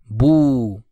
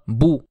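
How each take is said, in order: First: The vowel is long and held out. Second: The vowel is short and not held. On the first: "du fait qu'il y a la lettre de prolongement, on la prolongera" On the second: "il ne faut pas prolonger la voyelle courte. On dira bou"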